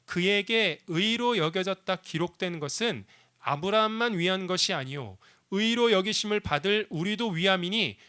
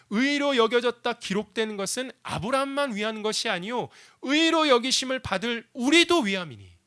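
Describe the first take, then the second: First: Steady, measured reading of the verse; scripture reading. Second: Louder, higher, preaching the verse; emphatic repeat. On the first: Pastor reading Romans to the church, measured. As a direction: read the verse out plainly to the congregation. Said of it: "말씀 이렇게 우리에게 들려주고 있습니다". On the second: Pastor re-preaching the verse to the congregation, forceful. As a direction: proclaim it with force. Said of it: "하나님이 우리에게 이 얘기하시는 거예요". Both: Shown as a demonstration.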